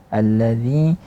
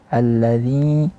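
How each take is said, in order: The two takes are said the same way.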